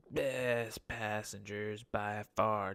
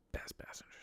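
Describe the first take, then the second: First: Drawn out, savoring each word; slow emphatic. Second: Breathy, secretive whisper; whispered aside. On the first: Driver slowly relishing his favourite passengers. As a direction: lean into it slowly. Praising drunk college girl passengers. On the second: Driver whispering his confession about favourite passengers. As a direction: let it slip out under the breath. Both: Real, not acted.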